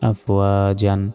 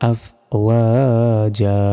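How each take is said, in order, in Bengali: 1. শব্দটি একটি n ধ্বনি দিয়ে শেষ হয়। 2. শব্দটি একটি সাধারণ a স্বরধ্বনি দিয়ে শেষ হয়।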